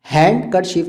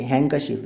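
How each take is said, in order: First: "हैंडकरचीफ" with a clear D; wrong pronunciation. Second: "हैंकरचीफ" with N straight into K; correct pronunciation. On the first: Teacher showing what cannot be said, mispronounced. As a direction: stress the D in "हैंडकरचीफ". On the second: Teacher showing the silent D, correctly pronounced. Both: Shown as a demonstration. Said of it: "नहीं कह सकते".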